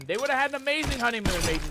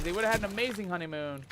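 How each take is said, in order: First: Excited pirate. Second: Said in the usual way. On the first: Acted. First take of repeated line.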